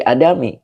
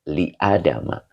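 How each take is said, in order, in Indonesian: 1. Kata itu berakhir dengan vokal 'i'. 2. Kata itu berakhir dengan vokal 'a'. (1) "tidak boleh li adami" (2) "tanda jernya bukan kasroh, tetapi fathah"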